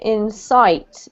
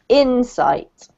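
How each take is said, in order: First: The stress is on the second syllable. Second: The stress is on the first syllable. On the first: The speaker calls it wrong. "you just put the emphasis on the wrong syllable" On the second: The speaker calls it right. "So the emphasis on the first syllable"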